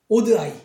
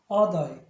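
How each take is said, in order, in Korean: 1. 첫 번째 모음은 oh 소리가 납니다. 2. 첫 번째 모음은 ah 소리가 납니다. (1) "오드아이 이렇게 발음하는데" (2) "오드가 아니라 아"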